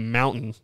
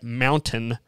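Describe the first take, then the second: First: The T in the middle is dropped. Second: The T in the middle is clearly pronounced. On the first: This is how people from Utah say it. "us Utah folk we say mountain ... we don't say our T's" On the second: This is how people outside Utah say it. "you normal folks say it mountain"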